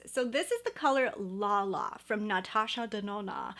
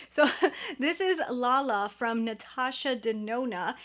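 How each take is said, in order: First: "Natasha Denona" with broad open ah vowels, nah-TAH-shah deh-NOH-nah; lightly affected, exaggerated ah vowels on "Natasha Denona"; fancy name pronunciation. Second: Said in the usual way. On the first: Shown as a demonstration. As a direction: give "La La from Natasha Denona" a mock-elegant foreign flair with every a as ah. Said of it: "I was gonna say it like Natasha Denona". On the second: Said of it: "Why am I talking like this?".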